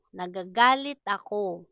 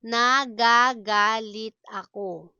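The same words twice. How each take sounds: First: Said in the usual way. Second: Firm, deliberate syllables. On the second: Shown as a demonstration. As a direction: sound out each syllable for learners. Slow model, then natural speed.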